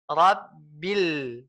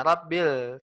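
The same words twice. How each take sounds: First: Rabbil with lips spread in a smile on the lam; smiling lam. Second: Rabbil with pursed, unsmiling lips on bil; pouting lips. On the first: Ustaz showing the complete sukun, smiling. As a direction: smile through the bil of Rabbil. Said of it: "ketika udah bisa senyum". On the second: Ustaz showing the incomplete sukun, pursed mouth. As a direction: say Rabbil with a pout. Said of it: "masih manyun mulutnya". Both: Shown as a demonstration.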